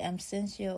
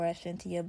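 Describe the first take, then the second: First: "Absentia" said with an S sound, ab-SEN-see-uh; soft-t pronunciation. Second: "Absentia" with a T sound, ab-SEN-tee-uh; hard-t pronunciation. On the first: Host offering listeners one reading, "Absentia" as ab-SEN-see-uh. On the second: Host offering listeners the spelled reading, "Absentia" as ab-SEN-tee-uh. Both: Shown as a demonstration. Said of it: "I don't know if they pronounce it".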